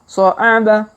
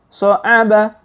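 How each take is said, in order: The two takes are said the same way.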